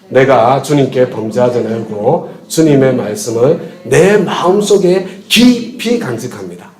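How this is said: The stress is on 마음속에 깊이.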